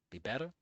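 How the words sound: It is mumbled as a question, rising.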